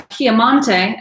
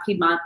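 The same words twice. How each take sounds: First: Piemonte said the Italian way, slowly, pee-eh-MON-teh; Italian pronunciation. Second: Said in the usual way. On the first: Shown as a demonstration. Explaining the local name to listeners, slow Italian pronunciation. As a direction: give Piemonte its native Italian sounds, drawn out. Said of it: "as they would say". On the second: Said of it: "not Piedmont".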